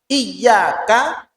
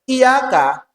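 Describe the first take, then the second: First: The y sound is held long and doubled. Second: The y sound is short and single. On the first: It means to you. The speaker calls it right. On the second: It means the light of the sun. The speaker calls it wrong.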